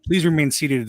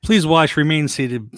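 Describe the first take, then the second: First: Louder announcer ride spiel; theme park ride spiel. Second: Announcer-style ride safety spiel; theme park ride spiel. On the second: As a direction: boom it out like a ride recording. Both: Shown as a demonstration. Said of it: "I was gonna do the old s- ride spiel".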